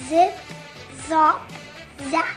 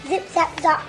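First: It is said slowly. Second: It is said fast.

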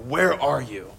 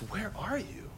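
First: It is shouted in an angry tone. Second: It is said in a gentle, longing tone.

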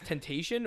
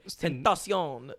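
First: It sounds like the English word temptation. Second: It sounds like a Spanish word, tentación. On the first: "I can't tell if it's Temptation"

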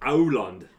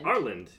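First: The name is said with a Norwegian pronunciation. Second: The name is said with an American pronunciation. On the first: Locals could understand the name. The speaker calls it right. "It is Auland" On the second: Locals could not understand the name. The speaker calls it wrong. "specifically American pronunciation"

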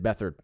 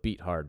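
First: The name does not sound like 'beat hard'. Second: The name sounds like 'beat hard'. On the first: This is how others said the name. "They said Beathard" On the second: The team beat him badly. "I'm going to go with Beathard because that's what we did. We beat him pretty hard"

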